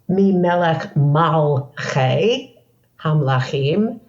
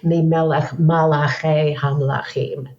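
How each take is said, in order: First: The third word is said with two syllables. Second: The third word is said with three syllables. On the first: It refers to the ruler of the rulers of rulers. The speaker calls it right. "And it's Mi Melech Malchei Hamlachim, from Melech, not from Malach" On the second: It refers to the angels or messengers of the rulers. The speaker calls it wrong. "people say Mi Melech Malachei Hamlachim, thinking it's the same word"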